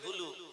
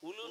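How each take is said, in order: First: The word begins with an h sound. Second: The word begins directly with a vowel. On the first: The speaker calls it right. "এবার থেকে বলবেন হুলু" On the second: The speaker calls it wrong. "উলু নয়"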